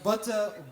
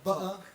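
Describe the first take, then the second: First: The middle consonant is a clear t sound. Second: The middle consonant is a glottal stop.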